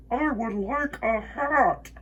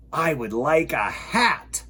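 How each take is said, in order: First: Echo. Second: Slow, thoughtful bear voice; Bear's reply. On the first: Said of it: "his own voice echoed off". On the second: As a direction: decides on a hat. Bear replies. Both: Acted.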